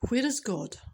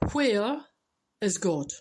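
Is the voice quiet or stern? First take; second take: quiet; stern. First: It is said in a soft, quiet voice. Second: It is said in a firmer, stern voice. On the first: "in a quiet voice initially" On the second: "he gets a bit more stern"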